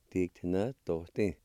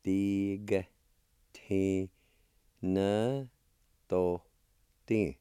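First: Said in the usual way. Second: Slow, each syllable held apart; teacher's careful syllable-by-syllable model. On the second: Shown as a demonstration. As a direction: sound out "Tig, te, na, to, ti" with long pauses. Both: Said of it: "It's pronounced like this".

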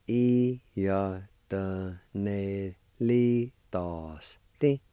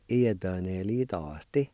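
First: Iodonelitosti drawn out slowly, yah-tuh-neh-lee-tahs-teh; slow model of Iodonelitosti; slow Cherokee pronunciation. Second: Iodonelitosti at natural speed, ee-ah-tah-neh-lee-tahs-teh; fluent take of Iodonelitosti; Cherokee pronunciation at normal speed. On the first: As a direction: stretch Iodonelitosti out so learners catch each sound. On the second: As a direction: say Iodonelitosti smoothly as a fluent speaker. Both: Shown as a demonstration. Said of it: "It's pronounced like this".

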